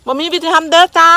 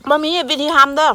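First: บ่มีวิธีทำเด้อจ้า said higher and louder; raised emphatic repeat of บ่มีวิธีทำเด้อจ้า. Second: Said in the usual way. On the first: Real, not acted. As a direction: call it out again, pushing บ่มีวิธีทำเด้อจ้า up and louder. Repeats the line, the second louder.

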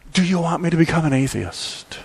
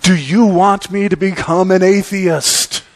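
First: Understated, softer desperate question; subdued plea, without the cartoon outburst; quiet despair. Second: Raised, emphatic mock-desperate plea; Calvin's desperate cry. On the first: Despairing Christians cry out to God, subdued and serious. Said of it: "in their despair, they've cried out". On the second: Calvin looks up at God in the final frame, desperate cry. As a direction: cry it up to God, higher and punched. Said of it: "cries out in utter desperation".

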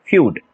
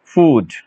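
First: फ्यूड said as "fyood", with a y glide before the long u; feud pronounced. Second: फूड said as plain "food", with no y glide; food pronounced. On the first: Teacher shows students how to say फ्यूड, with the y glide. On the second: Teacher contrasts फूड for students, with no glide. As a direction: say फूड with a straight long u. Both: Shown as a demonstration. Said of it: "अब ये देखिए इसका pronunciation".

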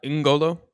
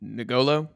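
First: N'Golo opening on a humming "ing" sound; corrected pronunciation. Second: N'Golo with a vowel after the N; Americanised pronunciation. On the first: Shown as a demonstration. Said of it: "Not N'Golo". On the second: Retold or imitated. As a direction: say N'Golo as nih-GO-lo, questioning. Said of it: "That was the American coming out of me".

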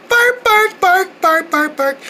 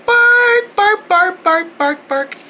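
The two takes are said the same way.

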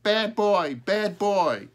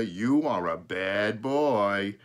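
First: High, loud squawked retort; loud high bird voice; talking crow. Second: Slow, louder drawn-out reproach; slow, emphatic teasing telling-off; mock scolding. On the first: A narrator's reading. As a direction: squawk it straight back like a crow. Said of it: "Smokey said right back to Peter". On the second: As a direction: stretch it out in playful agreement. Father fondly mock-scolds the crow.

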